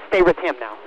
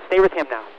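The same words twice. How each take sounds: The two takes are said the same way.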